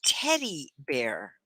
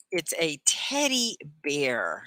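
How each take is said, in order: First: Slow "Teddy bear" with "Teddy" stressed; repeat model. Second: Slow "teddy bear", stress on "teddy"; teacher modeling the word. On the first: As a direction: say "Teddy bear" slowly for students. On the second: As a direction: say "teddy bear" slowly, lean on "teddy". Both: Shown as a demonstration. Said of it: "Can you say that?".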